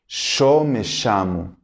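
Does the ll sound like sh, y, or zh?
sh. The ll is said like an sh sound.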